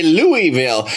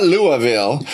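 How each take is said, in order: First: Louisville as LOO-ee-vil; Louisville, middle syllable said "ee"; her own Louisville pronunciation. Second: Louisville as LOO-uh-vil; Louisville, middle vowel swallowed to "uh"; rejected Louisville pronunciation. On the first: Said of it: "I say Louisville". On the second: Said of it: "not Louisville". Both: Shown as a demonstration.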